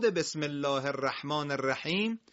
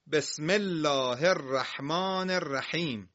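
First: Said in the usual way. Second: Slow, measured recitation with drawn-out vowels; Quran recitation. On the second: Shown as a demonstration. Teacher reciting the opening verse to pupils, measured recitation. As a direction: recite it slowly for learners.

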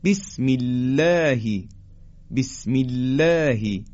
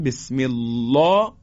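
First: بسم الله with thin lam and fronted long "læ"; slow recited بسم الله, keep الله light; light tarqiq. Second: بسم الله with thick dark lam, backed "law"; wrongly heavy lam. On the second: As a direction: demo of mistaken full, rounded الله in بسم الله. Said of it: "حالا اگر اینو درشت بگیم". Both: Shown as a demonstration.

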